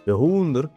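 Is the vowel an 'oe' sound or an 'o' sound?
oe. The word is said with an 'oe' vowel. This is the form heard in the song.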